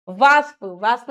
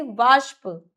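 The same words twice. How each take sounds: First: वाष्प with s for sh; plain s inside वाष्प; s error. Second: वाष्प with a hushing sh; sh sound. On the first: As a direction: say वाष्प wrongly as "vaaspa". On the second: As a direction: say वाष्प as "vaashpa". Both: Shown as a demonstration. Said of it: "नहीं".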